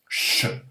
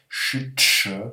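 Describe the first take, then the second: First: The sound is said as one quick unit. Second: The sound is split into two separate parts. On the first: "ça se dit plus rapidement que ça" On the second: "s'il fallait décomposer, on dirait ch-ch"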